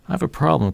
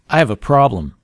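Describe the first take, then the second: First: The voice sounds calm and matches the words. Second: The voice sounds harsh and angry. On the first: The speaker is simply asking for help. The speaker calls it right. "the tone of my voice and the words containing the information are congruent" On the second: The listener feels threatened and tenses up. The speaker calls it wrong. "the tone of my voice doesn't match the content of my words"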